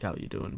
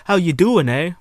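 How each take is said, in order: First: Said in the usual way. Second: Loud, high mock-Canadian "eh". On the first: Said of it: "that's not like, "How you doing?". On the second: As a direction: hammer out a cartoon Canadian greeting. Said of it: "as where the stereotype says it".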